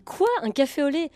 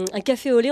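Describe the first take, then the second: First: Retold puzzled question, rising sharply at the end; incredulous echo. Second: Said in the usual way. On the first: Parisian server baffled by a newcomer's café au lait, incredulous. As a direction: echo the order back in mock disbelief.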